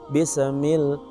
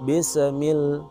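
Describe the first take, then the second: Both takes have the same delivery.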